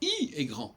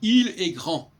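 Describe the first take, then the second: First: The l of il is dropped. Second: The l of il is pronounced. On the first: "on devrait dire I est grand" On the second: "on dit il est grand"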